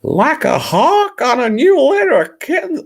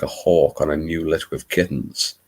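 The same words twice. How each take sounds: First: Very high, loud squealed disbelief; loud falsetto outrage; mock horror. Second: Put-on Louisiana narrator; Bayou Babe accent. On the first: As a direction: shriek it back as an appalled question. Mock horror at the line read. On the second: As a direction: read the line in an attempted American Southern accent. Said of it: "my attempt at a Bayou Babe".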